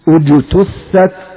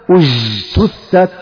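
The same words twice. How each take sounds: First: The j sound is stopped short with the breath held. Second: The j sound is soft and continuous, not stopped. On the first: The speaker calls it right. "الصوت محبوس" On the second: The speaker calls it wrong. "لا تقول أجتثت، أج، هذا حرف رخو"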